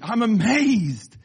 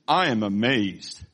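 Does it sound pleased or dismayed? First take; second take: pleased; dismayed. First: It sounds pleased and admiring. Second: It sounds dismayed and reproachful.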